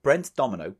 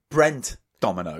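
First: Said in the usual way. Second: "Brent" slow and hit hard, then "Domino"; emphatic correction. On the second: Real, not acted. Correcting a friend who keeps mishearing, slow and emphatic on "Brent". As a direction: separate "Brent" from "Domino", slowly and firmly.

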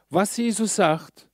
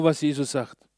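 First: Jesus drawn out, each word set apart; slow, weighty stress on Jesus. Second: Said in the usual way. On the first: Shown as a demonstration. Preacher to congregation, leaning hard on Jesus. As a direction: dwell on Jesus as the key word. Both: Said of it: "schau bitte genau".

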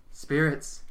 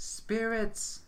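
First: Louder second call to the spirits; calling again. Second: High, drawn-out call to the spirits; yelled invocation. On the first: Medium calls the spirits once more, louder. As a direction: raise the voice to summon. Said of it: "Hazel continues". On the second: Medium summons the spirits at the seance, calling out. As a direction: cry out to the dead. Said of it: "Hazel yells". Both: A narrator's reading.

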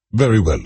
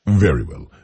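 First: Loud, pitched-up bark; barked reply. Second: Said in the usual way. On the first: Acted. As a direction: snap it back like a drill sergeant. Sergeant major snapping to.

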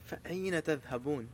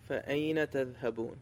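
First: فَأَيْنَ تَذْهَبُونَ recited sternly, quieter; stern recitation. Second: فَأَيْنَ تَذْهَبُونَ recited in measured Arabic, quieter; firm Quranic recitation. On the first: Preacher voicing God's stern question to believers, stern recitation. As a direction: give فَأَيْنَ تَذْهَبُونَ a stern, measured reading. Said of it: "Even in that stern voice". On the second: Preacher quoting the Quran to his listeners, firm recitation. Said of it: "a very firm question". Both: Shown as a demonstration.

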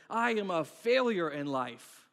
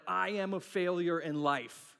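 First: Loud, drawn-out melodrama; hammed-up slow declaration, pounding out the words; really dramatic. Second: Drawn-out, self-pitying declaration; slow, overdramatic verdict on yourself; melodramatic. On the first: Pastor repeats his overreaction to failure, even more dramatic and louder. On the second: Retold or imitated. Pastor mimics himself overreacting to failing at something, melodramatic. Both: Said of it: "I can get really dramatic really quickly".

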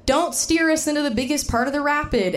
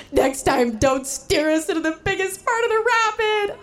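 First: Said in the usual way. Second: Tearful, very high and breaking voice; crying. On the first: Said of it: "I said". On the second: Retold or imitated. To husband after the rapid, crying in tears. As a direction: sob the words out. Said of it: "I burst into tears".

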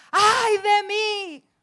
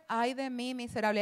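First: High, loud, slow drawn-out wail; anguished cry. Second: Mild lament. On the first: Prophet crying out before God's throne, a loud slow wail. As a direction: cry it out in dread, stretching every word. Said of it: "Está ahí con exclamación". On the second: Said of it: "o sea, esto no fue". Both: Shown as a demonstration.

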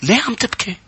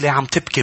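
First: Astonished question. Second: Nosy question. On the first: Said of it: "كان سؤال تعجب". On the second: People ask a weeping person why, mildly nosy. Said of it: "بيكون سؤال حشرية". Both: Acted.

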